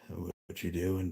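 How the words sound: It is said in a deep voice.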